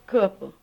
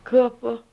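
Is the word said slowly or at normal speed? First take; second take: normal speed; slowly. First: It is said at normal speed. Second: It is said slowly and loudly.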